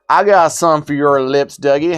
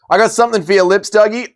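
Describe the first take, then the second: First: It is said in a put-on redneck accent. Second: It is said in the speaker's normal accent.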